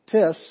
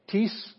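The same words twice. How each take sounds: First: "Tis" punched higher and louder, the other accent; indefinite word demo. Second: "tis" said slowly with stress on the first syllable, the question word; question word demo. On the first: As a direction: hit "Tis" up high and loud for the indefinite word. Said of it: "means anyone, a certain one". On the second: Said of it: "some kind of a question". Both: Shown as a demonstration.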